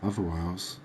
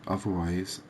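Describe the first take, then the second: No difference in how they are said.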